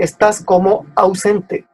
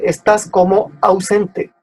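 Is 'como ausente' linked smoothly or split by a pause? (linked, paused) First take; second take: paused; paused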